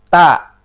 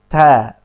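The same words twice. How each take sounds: First: The t is said with too much force. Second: The t is said with moderate breath. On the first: The speaker calls it wrong. "jangan juga terlalu jahr" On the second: The speaker calls it right. "sedang-sedang saja"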